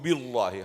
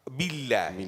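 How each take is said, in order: First: The L sound is heavy and full-mouthed. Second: The L sound is thin and light. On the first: The speaker calls it wrong. "you don't say A'udhu billahi" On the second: The speaker calls it right. "How you say?"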